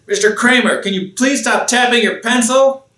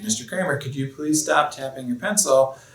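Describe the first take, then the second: First: It is said in an angry voice. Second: It is said in a calm voice.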